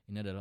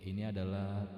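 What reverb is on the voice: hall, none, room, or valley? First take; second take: none; valley. First: The voice is dry with no added reverb. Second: The voice has a long valley-like echo reverb. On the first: "ini adalah original" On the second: "ini adalah efek valley"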